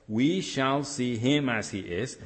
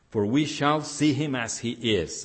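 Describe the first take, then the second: First: Slow, with stress on each word of "We shall see him as he is"; emphatic repeat. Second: Said in the usual way. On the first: Shown as a demonstration. Pastor repeating the verse to stress it for the church, slow and emphatic. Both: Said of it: "And that's my emphasis there".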